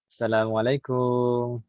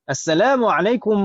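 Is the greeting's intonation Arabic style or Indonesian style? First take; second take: Indonesian style; Arabic style. First: It has a casual Indonesian-style intonation. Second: It has a careful Arabic-style intonation. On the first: The speaker calls it wrong. "Jangan seperti kebiasaan orang kita ya" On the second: The speaker calls it right. "intonasi salamnya seperti itu ya"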